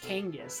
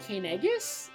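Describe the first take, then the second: First: The name is said with two syllables. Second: The name is said with three syllables. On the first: "is it really just Kangus? ... like a long E that doesn't create another syllable?" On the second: "I'm I'm gonna go Kanegus?"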